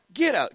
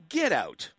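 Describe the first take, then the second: First: "Get out." said higher and louder, punched; emphatic louder "Get out."; louder repeat. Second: Said in the usual way. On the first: Real, not acted. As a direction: hammer the "Get out." home.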